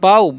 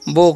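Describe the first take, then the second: First: The vowel sounds like 'ow' in cow. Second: The vowel sounds like 'oh' in go. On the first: The speaker calls it wrong. "बाऊ नहीं पढ़ना है" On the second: The speaker calls it right. "इसका उच्चारण क्या करना है, बो करना है"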